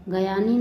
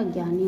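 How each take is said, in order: First: गयानी split as "ga-yani"; mispronounced. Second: Said in the usual way. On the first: Shown as a demonstration. Teacher showing students an error, गयानी with extra vowel. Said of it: "नहीं होता". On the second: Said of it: "होता है".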